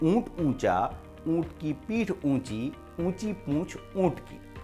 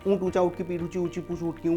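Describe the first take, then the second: First: It is said at a slightly quicker pace. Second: It is said at a very fast pace. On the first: "फिर उसको थोड़ा speed से बोलना है" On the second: "और speed से बोलना है"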